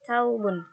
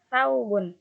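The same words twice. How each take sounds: First: The word begins with a plain t sound. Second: The word begins with a th sound. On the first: This is the dialect form. "Mereka mengucapkan" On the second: This is the standard form.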